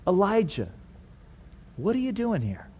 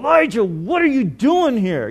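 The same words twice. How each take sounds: First: The question sounds gentle and concerned. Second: The question sounds angry and accusing. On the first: The asker cares about what is wrong. The speaker calls it right. "It's not judgmental" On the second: The asker is condemning the listener. The speaker calls it wrong. "It's not, you know, ... that's not the tone"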